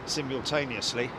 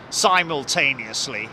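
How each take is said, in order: First: It is said in a British accent. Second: It is said in an American accent.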